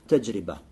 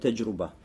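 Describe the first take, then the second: First: The middle syllable has the vowel 'i'. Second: The middle syllable has the vowel 'u'. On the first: The speaker calls it right. "правильно говорить таджриба" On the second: The speaker calls it wrong. "Многие тулябулем читают его как таджруба"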